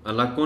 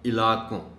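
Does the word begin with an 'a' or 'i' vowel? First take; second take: a; i. First: The word begins with an 'a' vowel. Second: The word begins with an 'i' vowel. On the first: The speaker calls it wrong. "इलाकों नहीं" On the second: The speaker calls it right. "एन के नीचे ज़ेर"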